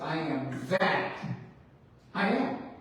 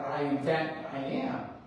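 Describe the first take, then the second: First: It is said with a pause after "that". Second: It is said without a pause after "that".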